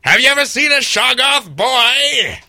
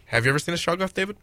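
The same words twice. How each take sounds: First: High, loud character holler; hammed-up shout. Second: Said in the usual way. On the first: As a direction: holler it like an over-the-top horror character. Hammed-up character line, then repeated plainly.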